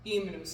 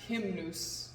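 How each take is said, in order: First: The word starts straight on the vowel, no h. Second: The word starts with an audible h sound. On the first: The speaker calls it right. "the letter H is always silent" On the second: The speaker calls it wrong. "not hymnus"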